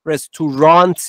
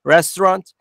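First: The middle vowel is a full vowel. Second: The middle vowel is a reduced schwa. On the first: The speaker calls it wrong. "Restaurant نیست" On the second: The speaker calls it right. "اینجا شواس"

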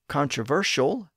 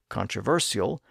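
First: The consonant before the ending is 'sh'. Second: The consonant before the ending is 's'.

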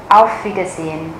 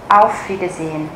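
Both takes have the same delivery.

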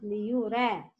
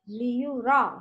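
First: The ra is said with a light, thin sound. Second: The ra is said with a heavy, full sound. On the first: The speaker calls it wrong. "not liyura" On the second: The speaker calls it right. "Ra and kha is heavy letter"

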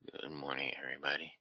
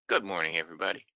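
First: The greeting is said in a tired, low-energy voice. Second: The greeting is said in a lively, upbeat voice. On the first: The speaker shows how they really feel on waking. "When I feel like" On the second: The speaker is putting on a cheerful front. "I try to be, you know, all upbeat"

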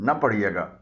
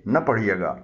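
Both takes have the same delivery.

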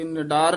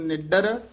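First: A long 'aa' vowel follows a single 'd'. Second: A short vowel follows a doubled, tense 'd'. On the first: The speaker calls it wrong. "ਨਿਡਾਰ ਨਹੀਂ ਕਹਿਣਾ" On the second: The speaker calls it right. "ਨਿੱਡਰ ਪਾਠ ਕਸ ਕੇ ਹੀ ਬੋਲਣਾ"

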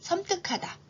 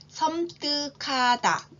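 First: The word is said at normal speaking speed. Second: The word is said slowly and deliberately.

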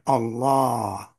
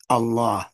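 First: The middle vowel is lengthened to two beats. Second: The middle vowel is short, one beat. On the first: This is how the Arabs named their god. The speaker calls it wrong. "They pronounce their God Allah" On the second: This is how the Quran names God. The speaker calls it right. "it's always one beat. Regular fatha vowel"

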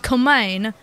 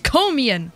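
First: The name ends with a 'main' sound. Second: The name ends with a 'mee-an' sound. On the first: The speaker calls it wrong. "I've been calling it Komain because I didn't know how to pronounce it" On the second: The speaker calls it right. "It's Komian"

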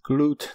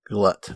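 First: The vowel is a long 'oo' sound. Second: The vowel is a short 'uh' sound. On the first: The speaker calls it right. "It's pronounced Glut" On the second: The speaker calls it wrong. "not glut, like we were saying"

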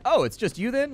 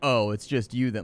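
First: The voice sounds bright and friendly. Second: The voice sounds flat and let down. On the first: The speaker is simply checking that only one person came. The speaker calls it right. "you could have put a different inflection on that" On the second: The speaker is unimpressed that only one person came. The speaker calls it wrong. "you don't have to say it with that tone"

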